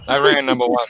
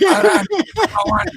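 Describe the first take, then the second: First: Put-on Iron Sheik accent, "Iran number one" chanted higher. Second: Put-on Iron Sheik accent, "Iran number one" yelled much higher. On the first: Host chanting the Iron Sheik catchphrase in his Iranian accent. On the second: Host topping the bit with a high Iron Sheik yell in his Iranian accent. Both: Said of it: "saying in his accent".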